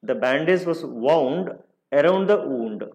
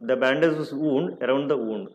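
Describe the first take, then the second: First: The first 'wound' has an 'ow' vowel. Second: The first 'wound' has an 'oo' vowel. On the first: The speaker calls it right. "First one వౌండ్ అనాలి" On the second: The speaker calls it wrong. "అలా అనకూడదు"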